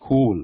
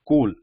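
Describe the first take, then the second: First: The k is followed by a puff of air. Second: The k has no puff of air after it. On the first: The speaker calls it wrong. "there is a h or h element in this" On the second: The speaker calls it right. "we should not use this h sound"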